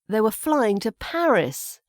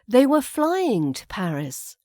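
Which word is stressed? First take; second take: Paris; flying. First: The word Paris carries the stress. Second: The word flying carries the stress. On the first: Paris instead of another city. "We've put the emphasis there on the location of Paris" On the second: They're not driving or taking the train. "we put the emphasis here on the flying"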